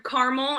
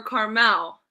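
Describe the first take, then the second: First: "caramel" with a weak second syllable, KAR-mul; pronunciation of caramel. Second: "Carmel" in two syllables, ending in a full MEL; pronunciation of Carmel. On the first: Guest quizzes the host on pronunciation, "caramel" as CAR-mul. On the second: Guest offers the host another pronunciation, "Carmel" as car-MEL. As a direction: say "Carmel" as car-MEL, clear final vowel. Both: Shown as a demonstration. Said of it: "is pronounced caramel or Carmel".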